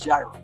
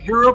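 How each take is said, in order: First: The word starts with a J sound. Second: The word starts with an H sound. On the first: The speaker calls it right. "I think it's gyro. Like a gyroscope" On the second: The speaker calls it wrong. "Hero pistol, maybe? I, I don't think so"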